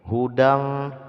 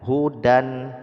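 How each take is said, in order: First: The final n is hidden in a blurred nasal. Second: The final n is pronounced as a clear n. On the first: "ketika dibaca bunyinya seperti ini" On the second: "pada dasarnya adalah hudan"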